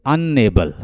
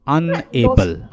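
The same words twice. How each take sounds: First: Said in the usual way. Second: "अनएबल" slowly in two parts, अन then एबल; split into syllables. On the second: Shown as a demonstration. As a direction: break "अनएबल" after अन, drawing it out. Teacher splits word into syllables.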